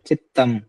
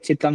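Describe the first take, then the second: First: The t sound is held and doubled. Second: The t sound is short and single. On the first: The speaker calls it right. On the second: The speaker calls it wrong. "यहाँ पे चितम नहीं बोलना आपने"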